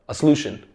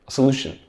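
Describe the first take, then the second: Both takes have the same delivery.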